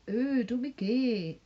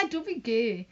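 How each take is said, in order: First: Slow, teasing imitation of his vibe; mocking ooh. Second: Lightly voiced playground jeer; a hint of a schoolyard taunt; schoolkid taunt. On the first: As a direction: drag out "Ooh" to mock him. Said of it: "that vibe he gives off". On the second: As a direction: toss it off like a kid teasing. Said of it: "in a school way".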